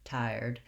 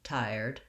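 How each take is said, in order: Both takes have the same delivery.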